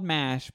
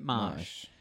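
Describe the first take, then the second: First: The vowel is like the one in cat. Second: The vowel is like the one in cot. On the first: This is the original word. "it was called MASH" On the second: This is how the accented pronunciation was heard. "but they pronounced it MOSH"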